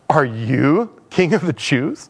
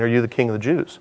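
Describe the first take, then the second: First: The word 'you' is strongly emphasized. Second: The word 'you' is not specially emphasized.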